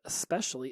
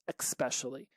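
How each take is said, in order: First: The word begins with an 'es' sound. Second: The word begins with an 'eks' sound. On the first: The speaker calls it right. "E S" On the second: The speaker calls it wrong. "with an X, so it'd be E X"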